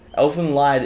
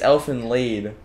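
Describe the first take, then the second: First: The last word rhymes with 'side'. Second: The last word rhymes with 'seed'. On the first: The speaker calls it wrong. "is not how it's pronounced" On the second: The speaker calls it right. "it's Elfin Lead"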